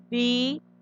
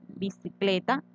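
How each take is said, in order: First: Bicicleta muy lento: bi... ci... cle... ta; separado en sílabas. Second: Said in the usual way. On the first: Shown as a demonstration. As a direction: pronunciar bicicleta sílaba por sílaba, con pausas. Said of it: "Yo miro, pronuncio". (bicicleta dividida, cada sílaba alargada) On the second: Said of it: "Vamos a mirar dónde tiene el acento".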